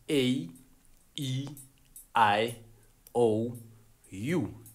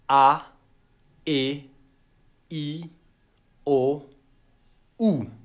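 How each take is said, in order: First: The vowel names are said the American way. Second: The vowel names are said the African way. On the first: The speaker calls it wrong. "This is how you actually pronounce your vowels" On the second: The speaker calls it right. "in Africa, it's a well-known thing that we pronounce our vowels like this"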